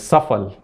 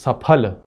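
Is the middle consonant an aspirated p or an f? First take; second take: f; aspirated p. First: The middle consonant is an f sound. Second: The middle consonant is an aspirated p sound. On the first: The speaker calls it wrong. "we can't pronounce it correctly, and it's Safal" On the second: The speaker calls it right. "the word is Saphal"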